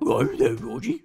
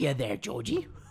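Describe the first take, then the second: First: It is said in a Scooby-Doo voice. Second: It is said in a Pennywise voice.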